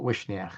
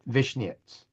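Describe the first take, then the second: First: The name begins with a W sound. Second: The name begins with a V sound. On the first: This is how Russians say the name. "the Russians pronounce it Wishniach" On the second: This is how the grandfather said the name. "he pronounced the W with a V"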